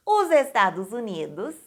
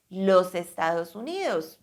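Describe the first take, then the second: First: Said in the usual way. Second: "Los Estados Unidos" said the Spanish way, pitched lower. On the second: Shown as a demonstration. Teacher giving the Spanish form "Los Estados Unidos" before the Portuguese. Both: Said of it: "como vocês diriam em espanhol também".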